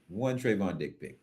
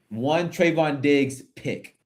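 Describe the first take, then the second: First: The phrase is said quickly. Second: The phrase is said slowly. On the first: The speaker calls it wrong. "when you say it fast, sounds weird" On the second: The speaker calls it right. "Thank you for slowing down"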